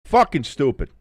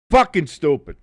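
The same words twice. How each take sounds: The two takes are said the same way.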